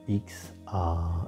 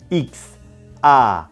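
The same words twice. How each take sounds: First: The sounds are mumbled with little mouth movement. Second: The sounds are strongly exaggerated and clearly articulated. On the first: The speaker calls it wrong. "Ne faites pas" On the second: The speaker calls it right. "vraiment exagérer cette articulation"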